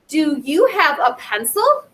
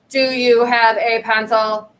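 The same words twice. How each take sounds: First: The pitch slides up higher at the end. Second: The pitch stays flat without rising at the end. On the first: The speaker calls it right. "Your voice kind of goes up higher" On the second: The speaker calls it wrong. "you don't say"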